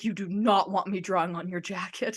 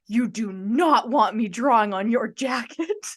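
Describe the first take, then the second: First: Understated retelling of the warning; lightly serious. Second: Slow, emphatic warning with NOT punched; dead serious. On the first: Fan recaps the singer's warning, mildly serious. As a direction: quote the warning at ordinary pace, only lightly stern. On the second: Singer warns fan about his drawing, dead serious. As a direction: imitate a gravely serious warning, word by word. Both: Retold or imitated. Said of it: "looks at me dead serious in the eyes".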